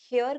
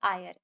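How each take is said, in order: First: It starts with an h sound, like hair. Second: It has no h sound, like air. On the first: The speaker calls it wrong. "काफी लोग हेयर करते हैं" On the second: The speaker calls it right. "But the pronunciation is आयर. एच is silent"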